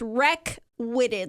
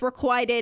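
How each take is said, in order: First: It is said like 'wreck-witted'. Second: It is not said like 'wreck-witted'. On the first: The speaker calls it wrong. "like W R E C K W I T T E D" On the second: The speaker calls it right. "no, it's requited"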